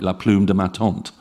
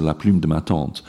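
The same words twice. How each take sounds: First: La plume de ma tante with English U and no nasal vowel; anglicized French, plume said like plume in English; English speaker's French. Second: Proper French la plume de ma tante with rounded U and nasal vowel; French accent. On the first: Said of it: "most English speakers would say something like". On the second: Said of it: "two phonemes that are really hard". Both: Shown as a demonstration.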